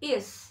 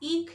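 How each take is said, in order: First: The word ends with a hissing sound. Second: The word ends with a hard k sound. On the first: The speaker calls it right. "It's like a hissing sound" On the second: The speaker calls it wrong. "কিন্তু এর উচ্চারণ ইক বা ইক নয়।"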